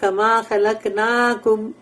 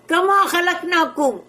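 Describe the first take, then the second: First: It is said calmly and plainly. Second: It is said loudly and angrily. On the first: The speaker calls it wrong. "वो सिंपल ऐसा नहीं है" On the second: The speaker calls it right. "एक जोर से गुस्से से होता है"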